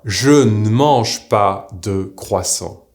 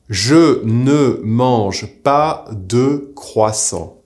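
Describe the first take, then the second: First: The word ne is reduced to a bare n. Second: The word ne is said as a full syllable.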